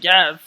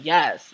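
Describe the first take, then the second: First: Much louder, exasperated retold yes. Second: Short, loud retold yes; curt impatience. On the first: Bus driver asked "are you sure?", loudly exasperated. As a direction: imitate a driver losing patience, loudly. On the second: Bus driver answering a pestering passenger, curtly impatient. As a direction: imitate a bus driver who's had enough. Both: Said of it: "not having it".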